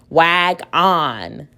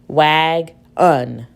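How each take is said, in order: First: The second syllable has a full 'on' vowel. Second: The second syllable has a reduced 'uh' vowel. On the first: The speaker calls it wrong. "That sounds kind of silly" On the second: The speaker calls it right. "we can use the schwa sound and try again"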